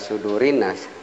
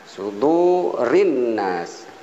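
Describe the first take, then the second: First: The vowel is held short. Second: The vowel is held long. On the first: The speaker calls it wrong. "yang tidak boleh" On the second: The speaker calls it right. "ini agak panjang"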